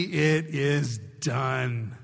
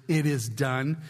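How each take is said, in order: First: "It is done" drawn out slow and low; solemn emphasis. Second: Said in the usual way. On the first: Acted. Preacher savouring God's words to the church, slow and solemn. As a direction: let "It is done" land, very slowly.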